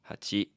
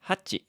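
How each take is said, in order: First: The word is said in a calm, plain way. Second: The word is said with lively, enthusiastic energy. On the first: The speaker calls it right. "technically it would be like hachi" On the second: The speaker calls it wrong. "I kind of said that with a lot of enthusiasm"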